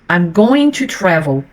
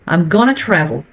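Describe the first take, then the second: First: Going to is said as two full words. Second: Going to is blended into one word, gonna.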